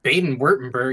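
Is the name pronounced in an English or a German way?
English. The name is read with English-style sounds. The speaker calls it wrong. "When I first read it, I was like, Baden-Württemberg? That sounds lame"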